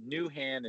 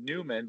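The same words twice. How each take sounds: First: Said in the usual way. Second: Newman with an M in place of the H of Newhan; mispronounced surname. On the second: Shown as a demonstration. Showing how a last name gets mispronounced, Newman with an M. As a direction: say Newman, swapping the H for an M. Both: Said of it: "if you mispronounce my last name".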